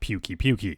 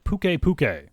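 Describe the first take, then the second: First: Each part ends with an added 'ee' sound. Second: Each part ends without an added 'ee' sound. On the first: The speaker calls it wrong. "not Pukey Pukey" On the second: The speaker calls it right. "that's how you actually pronounce it"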